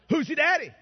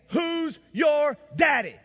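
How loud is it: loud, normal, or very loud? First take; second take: loud; very loud. First: It is said a little louder. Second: It is said loudest and most emphatically.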